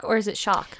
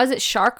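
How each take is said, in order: First: Shark with an open ah and no R; shark without R. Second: Shark said with the R sounded. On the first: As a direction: drop the R in shark. Contrasts with the R version. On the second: Asking which pronunciation of shark. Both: Shown as a demonstration.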